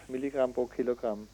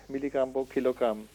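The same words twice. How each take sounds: The two takes are said the same way.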